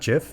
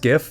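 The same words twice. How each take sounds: First: It begins with a soft J sound. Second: It begins with a hard G sound. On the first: The speaker calls it wrong. "not GIF" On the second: The speaker calls it right. "it is GIF, ... It is graphics interchange format"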